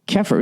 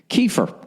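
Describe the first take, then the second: First: It is said close to 'kaffir'. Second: It is said like the name 'Kiefer'. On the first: The speaker calls it wrong. "I hope I'm not saying that wrong" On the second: The speaker calls it right. "I'm going to say kefir, like Sutherland"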